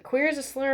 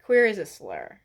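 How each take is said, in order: First: Mocking quote. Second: Said in the usual way. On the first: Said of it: "she said".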